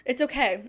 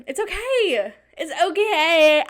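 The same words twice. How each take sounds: First: Said in the usual way. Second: Shaky self-reassurance. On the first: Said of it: "I'm really scared". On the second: Real, not acted. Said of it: "Yeah, I'm really scared".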